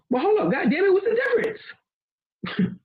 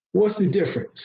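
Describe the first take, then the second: First: Mock outrage. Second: Said in the usual way. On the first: Asking the listener, in mock disbelief, how two greetings differ. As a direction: stretch it out high in fake disbelief.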